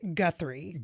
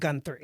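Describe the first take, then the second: First: The name is said without an N sound. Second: The name is said with an added N sound. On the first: The speaker calls it right. "Don't put an N in it. It's Guthrie" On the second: The speaker calls it wrong. "not Guthrie"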